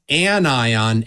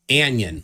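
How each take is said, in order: First: It begins with an 'an' sound. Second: It begins like the word 'onion'. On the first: The speaker calls it right. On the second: The speaker calls it wrong.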